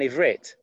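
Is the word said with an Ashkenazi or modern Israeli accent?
modern Israeli. It ends with a t sound, modern Israeli style.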